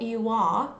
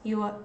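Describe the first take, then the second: First: The word 'are' is full and clearly stressed. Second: The word 'are' is reduced to a weak schwa. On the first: The speaker calls it wrong. "it's not this full R that is stressed and pronounced very clearly" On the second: The speaker calls it right. "It's more like the schwa sound there"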